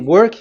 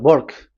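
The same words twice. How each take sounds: First: It is said in the speaker's plain accent. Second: It is said in an Indian English accent.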